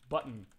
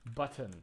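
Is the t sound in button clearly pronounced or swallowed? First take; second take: swallowed; pronounced. First: The t sound is swallowed, not clearly released. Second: The t sound is crisp and over-pronounced. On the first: The speaker doesn't really care. The speaker calls it wrong. "when you kind of swallow it, it doesn't sound as proper" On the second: The speaker really means it. The speaker calls it right. "Sometimes I like over-pronouncing the word button"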